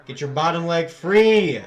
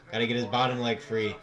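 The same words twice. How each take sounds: First: Much louder and higher, slow shouted coaching; yelling at the screen. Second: Said in the usual way. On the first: Real, not acted. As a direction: bark it at the fighter on screen.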